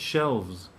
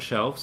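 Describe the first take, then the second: First: The word ends with a z sound. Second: The word ends with an s sound. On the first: The speaker calls it right. "it's shelves" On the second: The speaker calls it wrong. "If it was an F, it would be an S. ... But it's not shelves"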